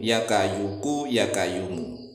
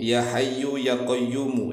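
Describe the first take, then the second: First: It begins kayuku, with a hard K sound. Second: It begins hayyu, with a breathy H sound. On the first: A Javanese farmer's tongue altered the phrase. The speaker calls it wrong. "dia membacanya ya kayuku ya kayumu" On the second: This is the original form of the phrase. The speaker calls it right. "zikir ya hayyu ya qayyumu"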